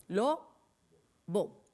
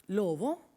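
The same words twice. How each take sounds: First: "lobo" broken in two, a clear pause between syllables; split into syllables. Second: Said in the usual way. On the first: Shown as a demonstration. Teacher showing children the syllables, "lobo" split slowly. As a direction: say "lobo" one beat at a time. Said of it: "¿Cuántas sílabas?". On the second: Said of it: "vamos a ver cuántas sílabas tiene".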